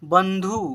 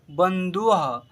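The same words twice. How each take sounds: First: Said in the usual way. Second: बंधुः said as ban-dhu-aha; visarga ending. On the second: Shown as a demonstration. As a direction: add aha after the u of बंधुः. (बंधुः में विसर्ग का साफ़ उच्चारण) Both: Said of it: "अह है last में".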